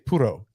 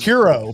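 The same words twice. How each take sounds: First: It is said with a Spanish-like pronunciation. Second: It is said with a Southern American twang. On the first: "how they say it is puro" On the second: "I say puro because I'm fucking redneck"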